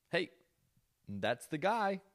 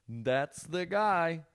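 First: Higher-pitched mock reveal reaction; mock recognition. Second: Very slow, high, stretched words; drawn-out mock recognition. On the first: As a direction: say it high, pointing him out. Imitated repeated reaction to reveal. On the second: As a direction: drag every word out in mock disbelief. Repeats the reaction, stretched out.

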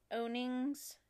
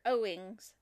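First: Owings misread as "OH-nings"; misread with extra N. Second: Owings said "OH-ings", no N in the middle; corrected to OH-ings. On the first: Host misreading a listener's town, Owings as "OWN-ings". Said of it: "or Owings, excuse me". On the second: Host correcting a misread town, Owings as "OH-ings". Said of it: "excuse me". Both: Real, not acted.

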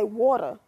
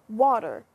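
First: Water as wawta, r dropped; water ending in a loose uh; local dialect water. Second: Water with its r sounded at the end; everyday water, final r kept; standard water. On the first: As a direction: say water your hometown way, wawta. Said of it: "You hear the difference?". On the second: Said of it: "okay, here's an example". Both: Shown as a demonstration.

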